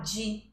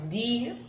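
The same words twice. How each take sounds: First: It starts with a soft, j-like sound. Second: It starts with a plain, hard d sound. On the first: This is the Brazilian Portuguese pronunciation. "aqui no Brasil, a gente vai falar di" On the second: This is the Italian pronunciation. "di em italiano"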